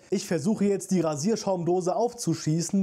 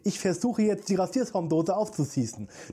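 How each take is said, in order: First: The s sounds are pronounced clearly without a lisp. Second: The s sounds are pronounced with a lisp. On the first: This is how the dubbed characters do not talk. "Die sagen halt nicht" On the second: This is how the dubbed characters really talk. "Die sagen, ... Die reden wirklich so"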